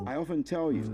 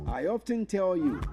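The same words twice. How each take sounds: First: The T in often is silent. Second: The T in often is pronounced. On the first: The speaker calls it right. "No, it's wrong. It's often" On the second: The speaker calls it wrong. "You hear some people say"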